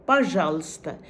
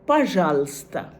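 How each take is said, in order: The two takes are said the same way.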